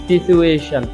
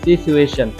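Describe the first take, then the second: No difference in how they are said.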